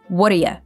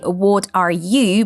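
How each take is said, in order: First: The T in 'what' is a quick D. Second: The T in 'what' is a clear T. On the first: "Americans tend to make it into a fast D sound" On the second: "she didn't say"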